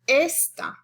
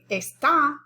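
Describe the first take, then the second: First: The stress is on the first syllable. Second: The stress is on the last syllable. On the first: It means this. "it's on the second to the last syllable" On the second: It means is. "if you want to stress a different syllable"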